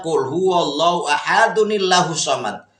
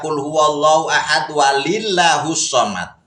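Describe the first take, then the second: First: Ahad joins the next word with an added n sound. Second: Ahad runs into the next word without an added n. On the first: The speaker calls it right. "kalau diwasol wajib pakai nun wikoyah" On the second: The speaker calls it wrong. "Dia baca kulhunya di wasol"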